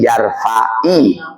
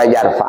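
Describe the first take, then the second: First: The word ends with an added short i vowel. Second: The word ends on a consonant, no final vowel. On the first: The vowel is added to avoid two vowelless sounds meeting. "maka menjadi yarfa'i" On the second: This is the original form before joining the next word. "Tadinya yarfa"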